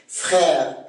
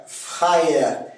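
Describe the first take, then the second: First: Said in the usual way. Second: "frère" as fra-ère; Québécois diphthong. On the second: Shown as a demonstration. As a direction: split the vowel of "frère" into ah-eh. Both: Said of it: "c'est A E en accent québécois".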